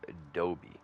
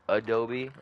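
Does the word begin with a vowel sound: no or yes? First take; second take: no; yes. First: The word begins without an initial vowel sound. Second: The word begins with an initial vowel sound. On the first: "Is it with or without the A?" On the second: "Is it with or without the A?"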